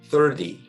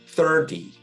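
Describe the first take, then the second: First: The middle consonant sounds like a d. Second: The middle consonant sounds like a d.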